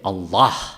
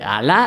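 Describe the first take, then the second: First: It is said with an Arabic pronunciation. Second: It is said with a Spanish pronunciation. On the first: "en árabe se dice Allah" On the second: "Eso es Alá"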